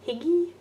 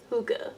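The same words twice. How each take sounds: First: Hygge said as hig-ee with a questioning rise; unsure pronunciation. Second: Hygge said as hoo-ga, falling and sure; settled pronunciation. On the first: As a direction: try Hygge as HIG-ee, asking. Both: Real, not acted. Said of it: "I believe it's Hygge".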